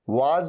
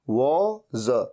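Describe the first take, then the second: First: The vowel is an open 'aa' sound. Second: The vowel is a rounded 'o' sound. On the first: The speaker calls it wrong. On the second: The speaker calls it right.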